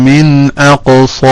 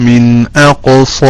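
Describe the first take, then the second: Both takes have the same delivery.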